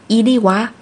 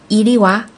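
No difference in how they are said.

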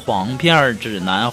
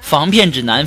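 First: The first word begins with an h sound. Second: The first word begins with an f sound.

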